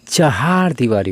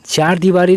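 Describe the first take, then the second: First: The first word is said as 'chahaar'. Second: The first word is said as 'chaar'. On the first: The speaker calls it right. "होता है" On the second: The speaker calls it wrong. "नहीं होता है"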